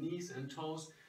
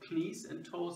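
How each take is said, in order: First: The k at the start is silent. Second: The k at the start is pronounced. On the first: The speaker calls it right. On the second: The speaker calls it wrong. "Du sagst ja auch nicht"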